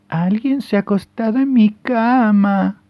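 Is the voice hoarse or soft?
soft. It is said in a soft mama bear voice.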